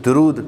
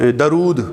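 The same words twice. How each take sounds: First: درود said "durood" with u on د; درود with pesh on the dal, "du-rood"; correct pronunciation. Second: درود said as "darood" with a short a after د; درود with the first vowel as in "dar"; common wrong way. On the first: Teacher giving the correct درود to the class. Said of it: "صحیح تلفظ دال پر پیش ہے". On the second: Teacher showing the common way to say درود. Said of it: "جیسے عام ہمارے ہاں". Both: Shown as a demonstration.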